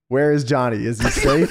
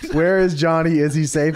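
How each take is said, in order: First: It is said in a Darth Vader voice. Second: It is said in his normal voice.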